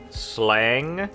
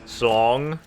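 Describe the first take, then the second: First: The vowel is an open A sound. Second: The vowel is a rounded O sound. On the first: The speaker calls it wrong. "it's not slang because their A" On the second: The speaker calls it right. "The A is supposed to be pronounced as an O"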